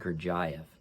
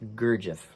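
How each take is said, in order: First: The name is said in an imitated, different pronunciation. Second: The name is said in a plain, ordinary pronunciation. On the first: This is another person's pronunciation. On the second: This is the speaker's own pronunciation.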